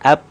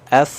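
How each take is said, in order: First: It ends with a closed-lip p sound. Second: It ends with a hissing f sound. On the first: The speaker calls it wrong. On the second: The speaker calls it right.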